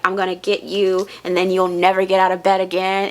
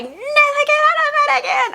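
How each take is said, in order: First: Said in the usual way. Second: Very high-pitched mimicked horror-movie scream; put-on shriek, far above the usual voice; imitated screaming. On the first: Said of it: "when she was like". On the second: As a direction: screech it like the girl in a horror film. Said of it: "screaming it".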